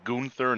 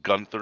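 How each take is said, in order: First: The name is said with a foreign-sounding pronunciation. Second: The name is said with a plain English pronunciation. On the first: The name sounds exotic and interesting. The speaker calls it right. "it's got like a kind of foreign connotation to it, like the accent" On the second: The name sounds ordinary and dull. The speaker calls it wrong. "such a boring name"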